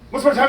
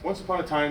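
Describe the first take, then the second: First: It is said very fast. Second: It is said slowly.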